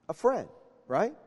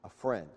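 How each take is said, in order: First: Said in the usual way. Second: Softly, much lower and under the breath; hushed reveal before repeating it; quiet answer. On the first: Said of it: "repeats answer to the room". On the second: Shown as a demonstration. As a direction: drop it almost to a murmur. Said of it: "answers his own question softly".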